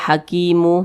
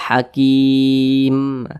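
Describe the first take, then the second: First: A short u vowel follows the final m. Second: The word stops on the m, no vowel. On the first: The speaker calls it wrong. "jangan dibaca hakimu" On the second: The speaker calls it right. "Jadi dibaca hakim"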